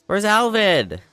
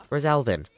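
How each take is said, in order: First: Loud, much higher-pitched question; exasperated call. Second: Said in the usual way. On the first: Real, not acted. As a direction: call out in alarm for someone missing. Asks again, frustrated at missing character.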